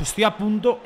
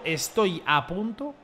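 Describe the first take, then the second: First: Said in the usual way. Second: "estoy a punto" stretched out slowly; slow, drawn out. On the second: Real, not acted. Streamer on the brink of turning selfish, slow and drawn out. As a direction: draw out "estoy a punto", leaving it hanging. Repeats words slowly for effect.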